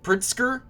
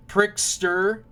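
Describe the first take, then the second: First: "Pritzker?" said as "Priss-ker", unsure and rising high; corrected name. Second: "Pritzker" said as "Prickster", with the sounds jumbled; first try at the name. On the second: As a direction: trip over "Pritzker", saying "Prickster". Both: Real, not acted. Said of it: "No, Pritz".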